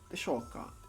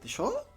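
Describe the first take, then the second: First: It is flat, unassuming and polite. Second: It ends with a sharp rising intonation.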